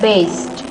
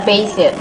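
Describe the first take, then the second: First: The word has one syllable with no added vowel. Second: The word has two syllables with an added vowel. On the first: The speaker calls it right. "but based" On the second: The speaker calls it wrong. "That's not basit"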